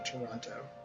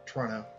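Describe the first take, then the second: First: The second T sound is pronounced. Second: The second T sound is dropped.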